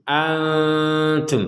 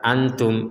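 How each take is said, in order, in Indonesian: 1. N-nya disamarkan dan ditahan sebentar secara sengau. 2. N-nya diucapkan dengan jelas tanpa ditahan. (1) "Nah, seperti itu" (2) "antum itu belum ada samarnya"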